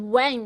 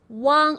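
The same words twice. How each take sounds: First: The vowel is said with a narrower mouth. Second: The vowel is said with a wide-open mouth. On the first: The speaker calls it wrong. "make sure you don't pronounce W A N G as wang" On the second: The speaker calls it right. "It's wang. Open your mouth wide and say wang"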